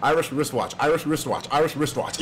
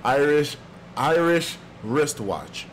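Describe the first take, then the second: First: Quick tongue-twister run of "Irish wristwatch"; brisk, even repeats of "Irish wristwatch"; said fast. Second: Slow, deliberate tongue-twister warm-up; measured practice run at "Irish wristwatch"; slow and careful. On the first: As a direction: rattle off "Irish wristwatch" three times in a row. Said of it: "I said it three times fast". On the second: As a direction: sound out "Irish wristwatch" slowly, word by word. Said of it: "three times without messing up". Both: Shown as a demonstration.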